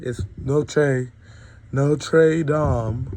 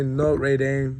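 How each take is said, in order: First: "Notre Dame" with Dame said "dahm"; "Notre Dame" as "noh-treh dahm"; proper Notre Dame. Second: "Notre Dame" said as "noh-ray daym", Dame rhyming with day; the way people say "Notre Dame", Dame like "day-m"; mock the common "Notre Dame" as "daym"; wrong Notre Dame. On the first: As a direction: correct it: "Notre Dame" ends in an open "dahm". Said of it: "That's how you pronounce it in Irish". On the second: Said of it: "I hate when people say Notre Dame". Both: Shown as a demonstration.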